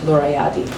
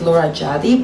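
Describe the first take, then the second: First: The surname begins with a Y sound. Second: The surname begins with an English J sound. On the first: This is how the name is actually said. "but actually it's like" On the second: This is how English speakers would read the spelling. "technically you pronounce it in English as"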